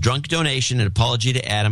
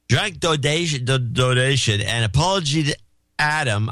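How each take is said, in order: First: It is read in an ordinary speaking voice. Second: It is read in a slurred, drunk-sounding voice.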